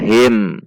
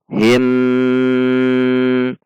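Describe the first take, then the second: First: The final m is short and clearly closed. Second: The final m is held with a nasal hum. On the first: The speaker calls it wrong. "itu pendek, itu dibaca izhar" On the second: The speaker calls it right. "dibaca dengan dengung dua ketuk"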